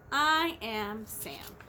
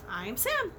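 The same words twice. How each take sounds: First: Lower, very slow announcement; deliberate low Sam; Sam's line. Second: Lifted playful repeat; other voice for Sam. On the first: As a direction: slowly introduce yourself as Sam. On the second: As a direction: say it as a second character. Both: Acted. Reading Green Eggs and Ham.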